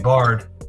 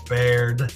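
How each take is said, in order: First: The vowel sounds like the word bar. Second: The vowel sounds like the word bear. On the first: The speaker calls it wrong. "People still call me Bard" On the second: The speaker calls it right. "just say Bear with a D"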